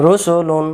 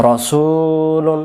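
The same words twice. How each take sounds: First: রসুলুন as "rusulun", all short and pitched higher; short, even "ru-su-lun"; short vowels. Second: রসুলুন with "su" sustained slowly on a level note; slow, recited "ro-suuu-lun"; long middle vowel. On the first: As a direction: say রসুলুন with "ru" and no stretch. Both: Shown as a demonstration. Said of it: "এলোমেলো আমরা পড়বো না".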